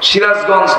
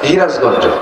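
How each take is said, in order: First: The word begins with an s sound. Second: The word begins with an h sound.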